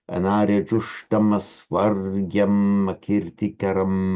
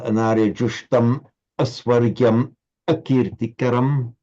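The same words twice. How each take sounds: First: The words flow together without breaks. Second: Each word is said separately with breaks. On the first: The speaker calls it right. "flowing as it would be pronounced by, uh, in, by a native speaker" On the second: The speaker calls it wrong. "So not"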